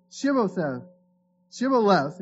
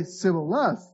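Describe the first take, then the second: First: Shibboleth with an initial sh sound; correct pronunciation. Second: Sibboleth with s in place of sh; mispronunciation. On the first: Men of Gilead testing a fugitive, Shibboleth with a clear sh. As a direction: say Shibboleth opening on "sh". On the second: Ephraimite failing the password test, Sibboleth with s for sh. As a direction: say Sibboleth opening on a plain "s". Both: Acted. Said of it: "he could not pronounce it right".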